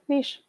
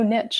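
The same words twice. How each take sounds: First: It is said without a t sound. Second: It is said with a t sound. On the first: The speaker calls it right. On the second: The speaker calls it wrong.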